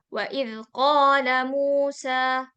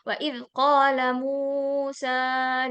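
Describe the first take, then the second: First: The final vowel is held for two beats. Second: The final vowel is held for three beats. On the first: The speaker calls it right. "Harusnya kan wa idh qala Musa" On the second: The speaker calls it wrong. "Jadi bukan tiga harokat, bukan"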